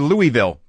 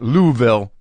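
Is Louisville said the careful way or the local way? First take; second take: careful; local. First: The name is said fully and carefully. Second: The name is said in a clipped local form. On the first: "pronounced uh, properly" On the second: "pronounced if you're a local"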